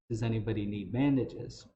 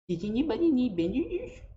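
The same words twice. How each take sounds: First: It is said in a plain, normal voice. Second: It is said with an over-enunciated lisp.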